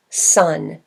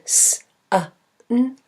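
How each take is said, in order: First: Said in the usual way. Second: "s" as a hiss, "a" as uh, "n" as a hum; sounds to blend. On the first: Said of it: "I get the word sun". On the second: Shown as a demonstration. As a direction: sound out "s, a, n" one by one. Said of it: "If I blend".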